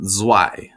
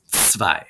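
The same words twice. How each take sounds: First: "zwei" said with an English z and w, "zwy"; wrong English z. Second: "zwei" said with ts and v, "tsvai"; proper German "zwei"; correct ts sound. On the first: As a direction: show the wrong "zwei" with a buzzing z. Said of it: "It's not zwei, but it's zwei". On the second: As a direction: give the right "zwei" starting with ts. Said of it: "The Z makes a tv sound". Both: Shown as a demonstration.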